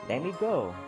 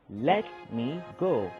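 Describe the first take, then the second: First: Let me is reduced and run together. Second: Let me is said as two full words. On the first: "I would say" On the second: "instead of saying let me"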